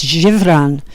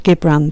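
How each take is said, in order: First: "zhi-BRAHN" for Gibran, not a hard G; soft-G Gibran. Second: "GIB-ran" for Gibran, Yorkshire style. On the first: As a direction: say Gibran with a soft French-style "zh" at the start. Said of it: "I believe it's Gibran". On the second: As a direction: say Gibran with a hard G, as in "give". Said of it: "that's my Yorkshire accent". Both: Shown as a demonstration.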